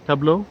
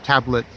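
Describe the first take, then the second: First: The name ends in a vowel, no T sound. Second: The name ends with a pronounced T sound. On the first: The speaker calls it right. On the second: The speaker calls it wrong.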